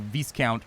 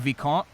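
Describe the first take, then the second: First: It is pronounced the English way. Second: It is pronounced the French way. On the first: The speaker calls it right. "I guess like viscount" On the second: The speaker calls it wrong. "So I always want to say vicomte, and like that's not how you say it in English"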